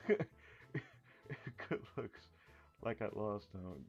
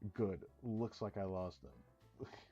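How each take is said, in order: First: The words 'good looks' are grouped together. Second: There is a break right after 'good'. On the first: The speaker calls it wrong. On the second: The speaker calls it right.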